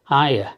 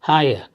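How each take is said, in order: First: The phrase is squeezed into two quick syllables. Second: The same.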